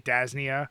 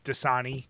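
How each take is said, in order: First: The word is said as Das-nia. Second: The word is said as Da-sa-ni. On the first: The speaker calls it wrong. "I used to say Dasnia" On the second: The speaker calls it right. "there's maybe a dozen words that I mispronounce, like Dasani"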